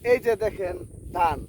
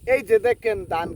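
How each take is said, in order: First: It is said in a calm, normal manner. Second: It is said in a wild, wacky manner.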